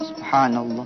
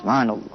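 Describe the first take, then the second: First: It is said slowly and unhurriedly. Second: It is said at a quicker, moderate pace. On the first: The words are savored. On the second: It is quicker but still savored. "irama bisa dipercepat"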